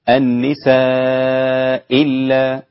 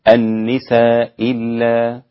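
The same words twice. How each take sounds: First: The vowel before the hamza is held long. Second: The vowel before the hamza is kept short. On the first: "المد هكذا أربع حركات" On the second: "كيف يكون القصر؟"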